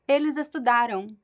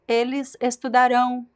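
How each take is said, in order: First: The stress is on the middle syllable. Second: The stress is on the last syllable. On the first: It happened in the past. "the stressed syllable is the middle one" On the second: It will happen in the future. "the stressed syllable is the last one"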